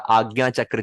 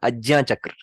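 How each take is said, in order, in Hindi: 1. संयुक्ताक्षर का उच्चारण g की आवाज़ से होता है। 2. संयुक्ताक्षर का उच्चारण j की आवाज़ से होता है। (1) "वो ऐसे नहीं बोलेंगे" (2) "वो ऐसे बोलेंगे आज्ञा चक्र। रियल प्रोनाउंसिएशन है ज्ञ"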